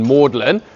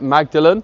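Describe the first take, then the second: First: It is said as two syllables, 'Maud-lin'. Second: It is said as three syllables, 'Mag-da-len'. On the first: The speaker calls it right. "the ancient French pronunciation Magdalen" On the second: The speaker calls it wrong. "as if you'd pronounce it Magdalen, as in Mary of Magdalene"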